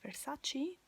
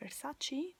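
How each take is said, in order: First: It has an American pronunciation. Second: The same.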